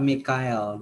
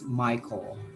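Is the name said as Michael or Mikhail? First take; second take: Mikhail; Michael. First: The name is said as Mikhail. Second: The name is said as Michael. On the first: The speaker calls it wrong. "this one is not Mikhail" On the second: The speaker calls it right. "This one is Michael"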